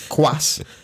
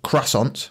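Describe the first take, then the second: First: It is said like French, roughly 'kwass-on'. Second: It is said with an English-style pronunciation. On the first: The speaker calls it right. "It's croissant" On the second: The speaker calls it wrong. "It's not that. It's not how you say it"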